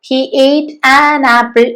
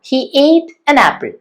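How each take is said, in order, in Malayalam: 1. 'an' എന്ന വാക്കിന് പൂർണ്ണവും ശക്തവുമായ സ്വരാക്ഷരമുണ്ട്. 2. 'an' എന്ന വാക്കിന് ചുരുങ്ങിയതും ദുർബലവുമായ സ്വരാക്ഷരമുണ്ട്.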